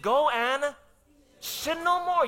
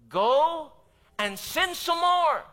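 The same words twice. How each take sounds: First: No hit high and held, sin stretched; the true words of Jesus, stressed; correct quote, stress on no. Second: High, loud, slow ironic misquote; a preacher mocking a misquote of Jesus; mock wrong quote. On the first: Retold or imitated. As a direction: land firmly on no. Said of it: "He said". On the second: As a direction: say it as an absurd false version. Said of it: "Is that what Jesus said".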